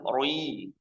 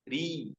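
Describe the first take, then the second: First: The r is heavy and thick. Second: The r is light and thin. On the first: The speaker calls it wrong. "bukan roi" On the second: The speaker calls it right. "Namun kalau dia kasroh, maka dia masuk tarqiq, tipis"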